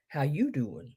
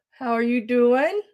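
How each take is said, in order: First: YOU stressed with a swoop, low and soft, in accent; casual accented "how you doin'"; put-on "How you doin'" accent. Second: Said in the usual way. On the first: Shown as a demonstration. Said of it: "my accent there". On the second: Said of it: "I didn't say that right".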